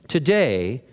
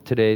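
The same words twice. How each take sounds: First: The word is said with strong forceful emphasis. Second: The word is said flat in a monotone. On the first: The statement is a startling, momentous announcement. The speaker calls it right. "he's dropping a huge boulder into the pond" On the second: The statement is treated as routine and unimportant. The speaker calls it wrong. "I'm sure he just kind of monotoned this out"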